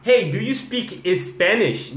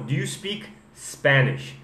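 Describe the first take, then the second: First: Higher, slow, "Spanish" as "es-Spanish"; learner's mistake. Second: Slow question, "Spanish" on bare S; corrected Spanish. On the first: Teacher showing what not to ask, "Spanish" with extra E. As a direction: put an E before "Spanish". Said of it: "Aí você não vai falar". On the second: Teacher correcting the question, slow "Spanish" without E. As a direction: start "Spanish" with only the S. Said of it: "Só o S que sai". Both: Shown as a demonstration.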